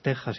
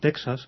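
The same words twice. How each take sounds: First: The x is sounded like the Spanish jota. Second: The x is sounded as ks, American style. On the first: The speaker calls it right. "y es Texas, igual que se dice México" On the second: The speaker calls it wrong. "que mucha gente tiende a pronunciar como Texas. A la americana"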